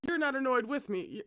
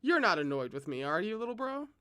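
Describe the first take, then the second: First: You're punched high, rest falling flat; wrong stress on You're. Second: You're not annoyed said evenly, rising on little bro; corrected stress. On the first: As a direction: hit the word You're, not annoyed. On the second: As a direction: let the question lift at the end. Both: Shown as a demonstration. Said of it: "Emphasis on the correct syllables".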